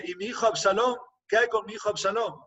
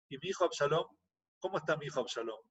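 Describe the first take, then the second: First: Higher-pitched, urgent asking; anxious pleading question. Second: Soft, hushed anxious asking; worried quiet question. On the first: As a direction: press for news of the son, voice lifted. King asks second messenger. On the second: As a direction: ask almost under the breath, dreading the answer. King asks about his son. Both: Retold or imitated.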